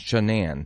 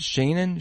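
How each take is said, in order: First: The last part is a full Anne sound. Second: The last part is reduced, like Shannon. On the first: The speaker calls it right. "because the last part of it is Anne, like the name Anne" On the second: The speaker calls it wrong. "how do you pronounce it"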